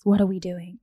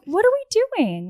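First: It is said in a heavy, serious tone. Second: It is said in a light, casual tone. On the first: The answer really matters and there is pressure. The speaker calls it wrong. "Don't like sit him down and be like" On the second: It is just a relaxed question with no pressure. The speaker calls it right. "Do it lightheartedly"

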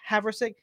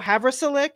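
First: The name has no extra L sound. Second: The name has an extra L sound inside. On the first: The speaker calls it right. "It's just Haversick" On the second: The speaker calls it wrong. "I want to stick an extra L in there. I want to go Haversilic, and it's not"

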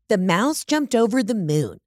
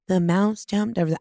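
First: It is read with lively enthusiasm. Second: It is read flatly and haltingly.

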